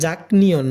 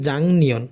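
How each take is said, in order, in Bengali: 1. nyeon-এর আগে k ধ্বনি আসে। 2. nyeon-এর আগে ng ধ্বনি আসে। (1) "এটা জাকনিয়ন না" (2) "এটা হবে জাংনিয়ন"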